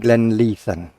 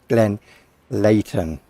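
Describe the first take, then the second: First: It is said the common way, without a T. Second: It is said with a clear T sound. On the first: The speaker calls it wrong. "some people say Glenleithan" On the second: The speaker calls it right. "the correct pronunciation ... You pronounce the T after the H"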